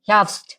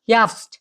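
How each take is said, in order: Both takes have the same delivery.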